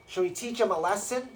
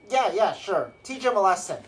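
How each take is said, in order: First: Lightly voiced henchman, higher, rising question; henchman devil asking. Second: Higher, louder acted go-ahead; devil boss agreeing. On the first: One spine devil asking another, lightly voiced eager question. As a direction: propose a punishment to your crony. Second devil asks the first. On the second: Spine devil agreeing to punish prisoner, acted loud order. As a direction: give your crony the order, falling firmly.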